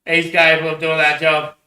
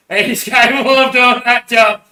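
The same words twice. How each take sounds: First: Said in the usual way. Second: Laughing through it, higher, louder and slow. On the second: Real, not acted. Alone on camera, repeating it laughing. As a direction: repeat it cracking up. Says it twice, second laughing.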